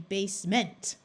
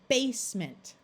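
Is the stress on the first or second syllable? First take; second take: second; first. First: The stress is on the second syllable. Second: The stress is on the first syllable. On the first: The speaker calls it wrong. "if you accented it incorrectly" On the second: The speaker calls it right. "we are going to accent the first syllable"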